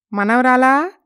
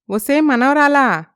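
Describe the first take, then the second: First: Calling granddaughter. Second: Insistent call. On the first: Grandma calls her granddaughter from next door. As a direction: call out to the girl from the doorway. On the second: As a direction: stretch the name out as you shout for her. Grandma calls again louder. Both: Acted.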